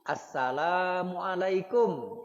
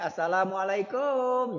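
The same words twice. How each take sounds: First: The syllable la is long; kum is short. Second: The syllable kum is long; la is short. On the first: The speaker calls it right. "Kumnya tidak panjang. Yang panjangnya la" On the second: The speaker calls it wrong. "Jangan lagi pakai assalamualaikum. Jangan lagi. Salah"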